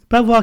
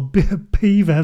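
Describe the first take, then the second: First: The name is said as spelt, bel-vwar. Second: The name sounds like the word beaver. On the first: The speaker calls it wrong. "still doing it" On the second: The speaker calls it right. "it's pronounced Beaver"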